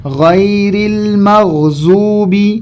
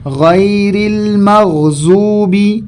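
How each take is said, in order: First: The key consonant sounds like a z. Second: The key consonant sounds like a z.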